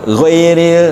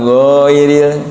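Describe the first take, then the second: First: The first vowel is kept short. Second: The first vowel is held for two beats. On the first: The speaker calls it right. "tapi ghairil" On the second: The speaker calls it wrong. "kan jadi dua harokat"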